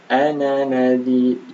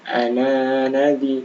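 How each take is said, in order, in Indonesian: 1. Vokal 'na' itu pendek. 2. Vokal 'na' dibaca panjang. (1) "dibaca pendek" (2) "bukan bukan ana nadi"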